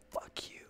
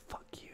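First: Silent mouthed curse, barely voiced; mouthed whisper. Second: Breathless whisper, almost silent; whispered curse. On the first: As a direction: mouth the words without sound. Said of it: "I mouthed it". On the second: Retold or imitated. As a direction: whisper it so dad can't hear. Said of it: "mouthed it and kinda whispered".

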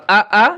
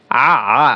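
First: আ as a short open hamza vowel, rising; hamza sound. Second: আ as a throat-squeezed Arabic ain, falling; ain sound. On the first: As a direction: say আ cleanly from a glottal onset, no squeeze. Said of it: "হামজা জবর আ". (হামজার মতো হালকা আ) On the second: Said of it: "আর আইন জবর আ". (আইনের মতো গলা চেপে আ) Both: Shown as a demonstration.

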